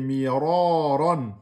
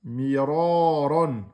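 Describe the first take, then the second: Both takes have the same delivery.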